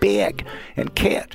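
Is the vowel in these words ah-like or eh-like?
eh-like. The vowel is raised and fronted toward eh. "you hit something like eh"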